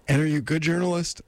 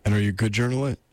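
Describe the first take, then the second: First: Higher, quicker lady character. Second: Said in the usual way. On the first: Acted. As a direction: ask briskly in a put-on higher female voice. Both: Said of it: "I'm doing this lady voice".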